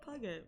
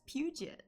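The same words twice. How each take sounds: First: The middle consonant is a hard g sound. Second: The middle consonant is a soft j sound. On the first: "It looks like Puget" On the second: "they should have named it P U J E T. That's Puget"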